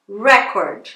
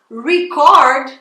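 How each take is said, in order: First: Record stressed on the first syllable, REC-ord; noun stress. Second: Record stressed on the second syllable, re-CORD; verb stress. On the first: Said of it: "vamos supor que eu fale". (record com tônica na primeira sílaba, RÉ-cord) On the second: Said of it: "se eu falar record". (record com tônica na segunda sílaba, ri-CÓRD) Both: Shown as a demonstration.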